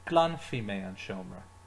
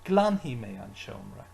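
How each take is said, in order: First: The verb ending begins with an f sound. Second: The verb ending begins with an h sound. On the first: "they do pronounce that F sound" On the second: "pronounce it as he"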